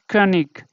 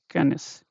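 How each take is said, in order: First: The word ends with a hard g sound. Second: The word ends with a soft hissing sound. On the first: The speaker calls it wrong. "it is not König" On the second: The speaker calls it right. "this should be pronounced as Könis"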